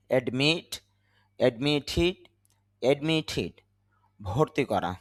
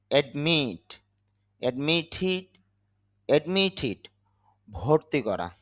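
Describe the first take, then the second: No difference in how they are said.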